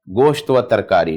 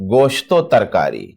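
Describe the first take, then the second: First: A separate 'va' is said between the words. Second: The 'o' joins onto the end of the first word. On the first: The speaker calls it wrong. "नहीं" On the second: The speaker calls it right. "यहाँ पे सही तलफ़ुज़ कीजिए"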